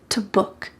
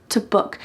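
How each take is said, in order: First: The word 'to' is cut to a t sound. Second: The word 'to' is cut to a t sound.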